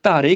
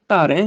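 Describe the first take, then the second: First: ਧਾਰੇ with a plain e ending; wrong oral ending. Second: ਧਾਰੈ with an open nasal ai; nasal ending. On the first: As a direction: end ਧਾਰੇ on a closed, un-nasalised e. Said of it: "ਅਰਥ ਗਲਤ ਹੋ ਜਾਏਗਾ". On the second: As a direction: end ਧਾਰੈ open and through the nose. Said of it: "ਉਚਾਰਨ ਤੇ ਅਰਥ ਦੋਨੋਂ ਠੀਕ". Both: Shown as a demonstration.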